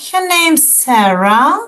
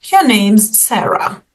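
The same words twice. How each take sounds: First: "Your name's Sarah" with rising tune, questioning; unsure rising. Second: "Your name's Sarah" with falling tune, certain; "Your name's Sarah" said flatly sure, dropping on Sarah; sure statement. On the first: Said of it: "When you're not sure". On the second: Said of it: "you're sure in what you are saying". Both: Shown as a demonstration.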